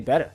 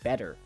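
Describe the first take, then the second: First: The word ends with an 'ah' sound. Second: The word ends with an 'er' sound. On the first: The speaker calls it right. "I like to say better" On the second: The speaker calls it wrong. "it doesn't sound right to say better"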